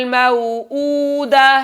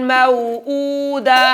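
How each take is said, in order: The two takes are said the same way.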